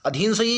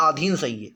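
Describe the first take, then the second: First: अधीन opening on a short "a", "adheen"; short first vowel. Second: अधीन opening on a long "aa", "aadheen"; long first vowel. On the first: Teacher quizzing students on two options, अधीन with short initial vowel. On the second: Teacher quizzing students on two options, अधीन with long initial vowel. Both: Shown as a demonstration. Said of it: "ये दोनों में से कौन सा सही है".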